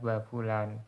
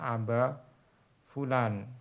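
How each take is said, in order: First: The opening 'a' is dropped, starting with 'ba'. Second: The phrase starts with an 'a' before 'ba'. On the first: This is the dialect form used in Hadramaut. "Tapi hamzahnya dihapus jadinya ba fulan" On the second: This is the original full form. "Asalnya aba fulan"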